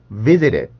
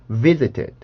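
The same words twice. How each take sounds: First: The middle t is a quick flap. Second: The middle t is a clear, released t. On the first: "T 발음이 플랩이 되어서 그렇습니다" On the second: "있는 그대로 발음 교대로만 발음을 하면"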